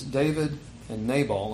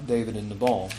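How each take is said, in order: First: "Nabal" said NAY-ball, long A first; NAY-bal pronunciation. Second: "Nabal" said nuh-BALL, weak first vowel; nuh-BAL pronunciation. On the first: Preacher offers one reading of the name, "Nabal" as NAY-ball. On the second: Preacher offers the other reading of the name, "Nabal" as nuh-BALL. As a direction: say "Nabal" with a short unstressed "nuh", then "ball". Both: Shown as a demonstration. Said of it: "what pronunciation guide you're using".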